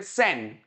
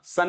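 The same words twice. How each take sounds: First: सेन with an open 'e'; correct first syllable. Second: सन with an 'uh' vowel; mistaken first syllable. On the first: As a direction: model सेन as 'sen', not 'sun'. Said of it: "इसको बोलिए पहले सेन". (सेन, 'ए' स्वर वाला सही हिस्सा) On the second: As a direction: show सन like English 'sun' as the error. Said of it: "सन नहीं होता". (सन, 'अ' स्वर वाला गलत हिस्सा) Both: Shown as a demonstration.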